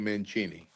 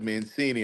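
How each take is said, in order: First: The name is said with Italian pronunciation. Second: The name is said with American pronunciation. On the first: The speaker calls it right. "I was waiting for you to say" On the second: The speaker calls it wrong. "I was very surprised when you said"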